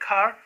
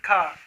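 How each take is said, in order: First: The final r sound is clearly pronounced. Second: The final r sound is dropped. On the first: "Americans say car" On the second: "while the British say car"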